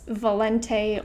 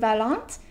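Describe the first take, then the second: First: The name is pronounced the English way. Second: The name is pronounced the French way.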